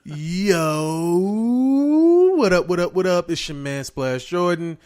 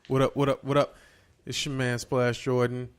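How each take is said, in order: First: It is said with high energy. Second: It is said with low energy.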